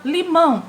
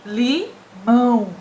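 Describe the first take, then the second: First: Said in the usual way. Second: LIMÃO devagar, em duas sílabas, ÃO pelo nariz; som nasalizado. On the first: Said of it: "Vamos falar". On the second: Shown as a demonstration. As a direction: separar "Limão" e prolongar o MÃO nasal. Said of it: "ele sai pelo nariz". ("Limão" silabado, final bem nasal)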